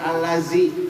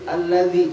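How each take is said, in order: First: The consonant is said as a plain z sound. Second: The consonant is said with the tongue between teeth. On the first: The speaker calls it wrong. "Jangan sampai nggak digigit jadi zai" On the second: The speaker calls it right. "Zalnya ditipisin, gigit"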